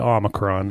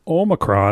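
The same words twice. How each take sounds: First: The first O is a short vowel. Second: The first O is a long vowel. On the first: The speaker calls it wrong. "you are now no longer allowed to say Omicron" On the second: The speaker calls it right. "It has to be a long O"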